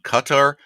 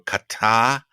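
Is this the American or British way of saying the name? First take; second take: American; British. First: It uses the variant some American speakers use. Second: It uses the variant some British speakers use. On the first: "Some Americans uh, are settled on Qatar" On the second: "Brits occasionally go Qatar"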